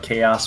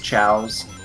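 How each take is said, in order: First: The word has two syllables, like kay-os. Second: The word has one syllable, like chows. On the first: The speaker calls it right. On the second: The speaker calls it wrong. "I thought chaos was pronounced as chows"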